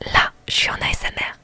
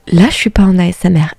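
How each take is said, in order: First: It is spoken in a whisper. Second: It is spoken in a normal voice.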